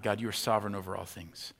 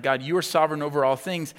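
First: Said in the usual way. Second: Fervent prayer. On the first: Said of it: "they turn immediately to God". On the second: Retold or imitated. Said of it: "they're praying, like".

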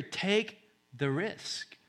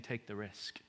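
First: High, drawn-out "Take the risk"; emphatic urging. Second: Very soft, low nudge; hushed, as if in your ear; whispered urging. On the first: God urges the fearful to "Take the risk", slow and emphatic. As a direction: stretch "Take" and "risk" slowly, pitched high. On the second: God nudges others to take the risk, hushed. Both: Acted. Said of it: "he's whispering in your ear".

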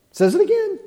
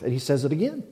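First: "Says it again" flung out high and loud; emphatic exclaim. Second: Said in the usual way. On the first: Acted. Preacher repeats to the congregation, much higher and louder. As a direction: throw "again" up high and hard.

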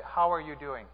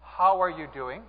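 First: Subdued question with falling end; mildly downcast. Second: Said in the usual way. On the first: Acted. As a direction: ask it as if feeling low. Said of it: "the most down person in this church". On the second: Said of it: "Say it with me".

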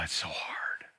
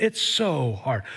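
First: A soft breathy whisper, barely voiced. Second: Said in the usual way. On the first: Real, not acted. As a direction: drop to a whisper as if confessing. Confession of difficulty.

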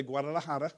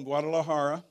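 First: "Guadalajara" pronounced as Spanish speakers there say it; Spanish pronunciation. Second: Said in the usual way. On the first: Shown as a demonstration. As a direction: say "Guadalajara" the local Mexican way. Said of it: "or they say". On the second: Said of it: "or they say Guadalajara".

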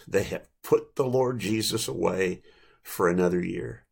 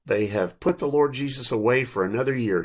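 First: "They have put the Lord Jesus away", then a pause before "for another year"; deliberate repeat. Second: Said in the usual way. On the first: A narrator's reading. Preacher repeats preschool son's remark, pausing before "for another year". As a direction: let "for another year" drop lower after a pause. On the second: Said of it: "offered an insightful comment".

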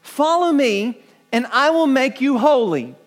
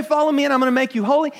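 First: Quoting Jesus. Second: Rattled-off quote. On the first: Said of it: "Jesus did not say". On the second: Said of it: "But Jesus didn't say". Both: Retold or imitated.

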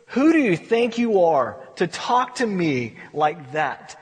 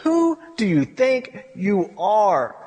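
First: Slow, weighty rebuke; a measured challenge to a complainer; God with attitude. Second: Very slow, word-by-word rebuke; attitude. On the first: God rebukes Job for complaining, with slow, mild attitude. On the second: God puts Job in his place, with slow, emphatic attitude. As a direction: draw out each word as a weighty challenge. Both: Acted. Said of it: "You could almost hear the attitude".

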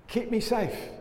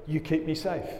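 First: Pleading. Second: Said in the usual way. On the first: Shown as a demonstration. Preacher voicing the plea of the psalm, lifted high. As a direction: keep me safe lifted high, begging. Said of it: "And so there's the plea". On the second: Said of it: "ends with the declaration".

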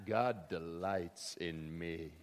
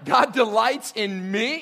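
First: Slow, soft, dreamy murmur of God delights in me; slow, low hush with the weight on God; hushed self-delight. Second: Slow, loud, scandalised question on God delights in me; louder and higher, rising in disbelief; incredulous. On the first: Pretend. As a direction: savour it quietly to yourself. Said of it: "I'm not sure what that was". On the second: Acted. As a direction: recoil at the very idea. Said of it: "You're not supposed to talk like that".

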